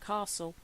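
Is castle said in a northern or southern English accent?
southern. It is said in a southern English accent. "rather than castle, even though I've grown up in the south"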